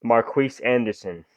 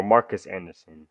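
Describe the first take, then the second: First: "Marquise" said mar-KEES, with a long ee ending; Marquise pronunciation. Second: "Marcus" said MAR-kus, with a short second syllable; Marcus pronunciation. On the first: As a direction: say "Marquise" with a KEES second syllable. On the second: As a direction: say "Marcus" with an unstressed kus ending. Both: Shown as a demonstration. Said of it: "Some people are pronounced Marcus like that or Marquise".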